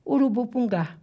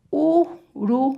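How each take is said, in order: First: Said in the usual way. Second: "urubupungá" broken up with long pauses, U, RU, BU, PUN, GÁ; syllable by syllable. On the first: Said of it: "Sílaba tônica é a última". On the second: Shown as a demonstration. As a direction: sound out each syllable of "urubupungá" separately. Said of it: "Eu posso ter duas sílabas". ("urubupungá" sílaba por sílaba, com pausas)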